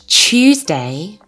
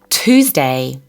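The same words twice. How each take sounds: First: It is said with a British accent. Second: It is said with an American accent. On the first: "British Tuesday" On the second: "American Tuesday"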